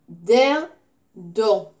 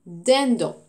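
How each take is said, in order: First: Dindon slowly, DIN stretched, gap, then DON; syllable by syllable. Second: Said in the usual way. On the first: Shown as a demonstration. Teacher asking where "on" is heard, dindon slowly split syllable by syllable. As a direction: draw out dindon in two separate syllables. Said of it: "Où est-ce que j'entends on?". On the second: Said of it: "dans la deuxième syllabe".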